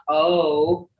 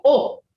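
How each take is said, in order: First: O as a long English "oh"; wrong long O. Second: O short and pure, with no glide into "oh"; correct short O. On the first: Teacher showing students the sound to avoid, long O. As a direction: draw O out into a rounded "oh". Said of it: "I said not O". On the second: Teacher correcting the vowel for students, short pure O. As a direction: cut O short and higher. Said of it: "but O". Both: Shown as a demonstration.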